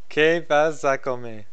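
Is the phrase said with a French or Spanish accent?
Spanish. It is said with a Spanish accent.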